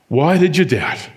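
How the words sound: The line is said in a frustrated tone. Jesus is frustrated with Peter. "Or frustration"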